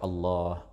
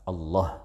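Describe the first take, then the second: First: The vowel after the l is held moderately long. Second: The vowel after the l is cut short. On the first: The speaker calls it right. "Boleh dibaca Allah" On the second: The speaker calls it wrong. "asalkan tidak dibaca Allah"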